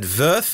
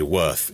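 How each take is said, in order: First: Würth with a V sound and umlaut vowel; attempted German pronunciation. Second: Worth said like the English word, with a W; English pronunciation. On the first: Podcast host guesses at a German town name, attempted German pronunciation of Würth. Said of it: "in German, with a little umlaut thing". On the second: Podcast host shows how English speakers say it, English pronunciation of Worth. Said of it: "I would say Worth in English". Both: Shown as a demonstration.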